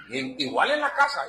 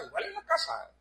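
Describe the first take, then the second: First: Said in the usual way. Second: "igual en la casa" repeated much higher and softer; echoed much higher. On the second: Shown as a demonstration. Preacher echoing his own point to the brothers, higher and softer. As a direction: echo "igual en la casa" up high, quietly. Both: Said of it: "repeated phrase".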